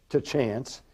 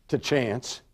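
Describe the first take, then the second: Both takes have the same delivery.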